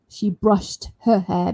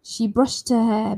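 First: Each word is said clearly and separately. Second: The t sound runs straight into the next word. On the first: "If you want to say nice and clear one by one" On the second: "I can carry the sh T with the next sound, her"

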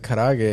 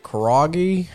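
First: The word is pronounced in a Japanese-like way. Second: The word is pronounced in an anglicized way. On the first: The speaker calls it right. "I would say the words and pronounce them correctly" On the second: The speaker calls it wrong. "he'd pronounce them back with like the whitest accent"

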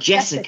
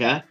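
First: The middle consonant is a plain s sound. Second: The middle consonant is a lisped th sound. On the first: The speaker calls it wrong. "Not Jessica" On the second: The speaker calls it right. "you gotta say it with TH"

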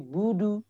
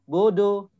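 First: The final vowel is a full rounded u. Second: The final vowel sounds open, like o. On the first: The speaker calls it right. "Tapi budu" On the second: The speaker calls it wrong. "Nah, tidak"

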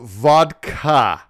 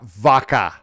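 First: The D sound is clearly pronounced. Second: The D sound is dropped. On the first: The speaker calls it right. "it's called vodka ... You can pronounce the D" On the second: The speaker calls it wrong. "not vodka"

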